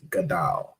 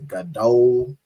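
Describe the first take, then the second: First: The second vowel is an 'a' sound. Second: The second vowel is an 'o' sound. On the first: The speaker calls it right. "should be pronounced as Gadal" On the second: The speaker calls it wrong.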